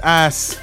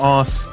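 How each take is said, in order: First: The vowel is said the American way. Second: The vowel is said the British way. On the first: The speaker calls it right. "he also said it's ass" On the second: The speaker calls it wrong. "not ass. I'm British man"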